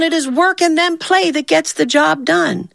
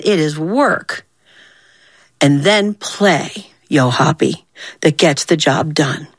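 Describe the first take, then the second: First: Said in the usual way. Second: Slow, deliberate lesson with weight on WORK and PLAY; emphatic lecture. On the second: Acted. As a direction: WORK and PLAY drawn out slowly, with pauses. Pointed repeat of her lesson.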